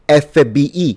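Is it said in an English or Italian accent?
Italian. The letters are said with Italian pronunciation. "Or if you want to say C I A, then say F B I"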